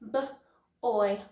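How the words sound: The word is broken into separate sounds.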